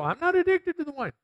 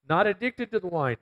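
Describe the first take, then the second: First: High, indignant mock protest; mocking defensive drinker. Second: Said in the usual way. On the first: People brushing off the verse, mock indignant. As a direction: squeak it out like a touchy denier. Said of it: "And I know people go". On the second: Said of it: "It says here very plainly".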